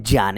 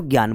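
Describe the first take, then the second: First: ज्ञान said with a j sound, "jyaan"; corrected pronunciation. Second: ज्ञान said with a hard g, "gyaan"; common mispronunciation. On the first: Teacher giving students the pure pronunciation, "jyaan". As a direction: start ज्ञान on j, not g: "jyaan". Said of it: "इसका शुद्ध उच्चारण क्या है". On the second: Teacher quoting how students wrongly say it, mispronounced "gyaan". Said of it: "बताओ गलत बोलते हो कि नहीं बोलते". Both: Shown as a demonstration.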